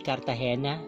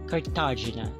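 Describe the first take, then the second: First: The name is said the Spanish way. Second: The name is said an English-like way. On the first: This is the standard pronunciation of the name. "It's supposed to be Cartagena. It's a Spanish name" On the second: This is a personal, exotic-sounding variant of the name. "I want it to be pronounced Cartagena. So I think it's more exotic sounding"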